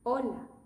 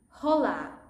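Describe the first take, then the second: First: The word is said the Spanish way. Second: The word is said the English way. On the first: The speaker calls it right. "that word should have been pronounced like this" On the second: The speaker calls it wrong. "The most common mistake is for people to go with hola. Don't bring your English into the thinking"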